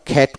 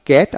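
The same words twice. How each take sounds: First: "খ্যাট" with a puff after k; aspirated K. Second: "ক্যাট" with a plain k; unaspirated K. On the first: Teacher showing the alternative pronunciation, aspirated K in "খ্যাট". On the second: Teacher modelling a one-syllable word, unaspirated K in "ক্যাট". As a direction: say "ক্যাট" without a puff of air. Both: Shown as a demonstration. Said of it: "আবার খ্যাট উচ্চারিত হয়".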